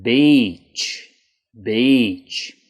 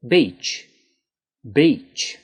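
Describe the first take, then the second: First: "Beach" with a long, stretched ee; exaggerated long E. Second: Said in the usual way. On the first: Shown as a demonstration. Teacher exaggerating the vowel for students. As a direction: drag out the ee in "Beach". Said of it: "I was really trying to emphasize it, exaggerate it". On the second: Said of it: "If I was saying it normally".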